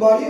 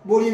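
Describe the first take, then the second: First: The vowel sounds like 'ah'. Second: The vowel sounds like 'oh'. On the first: The speaker calls it right. "উচ্চারণটা কিন্তু বাড়ি" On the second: The speaker calls it wrong. "অনেকে বুড়ি বা বড়ি বলে"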